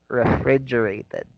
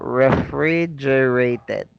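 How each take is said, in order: First: The word is said quickly. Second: The word is said slowly. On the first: "getting faster" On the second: "read it slowly first"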